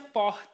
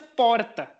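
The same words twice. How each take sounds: First: It is said with a Manaus accent. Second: It is said with a Rio Grande do Sul accent.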